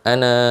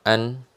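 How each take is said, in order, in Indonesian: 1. Kata ini berakhir dengan vokal panjang. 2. Kata ini berakhir dengan konsonan. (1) "kita sudah stop tadi ya" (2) "maka dia akan dibacanya an"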